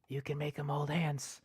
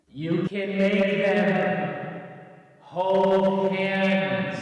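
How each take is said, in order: First: It is said at normal, quieter volume. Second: It is said much louder.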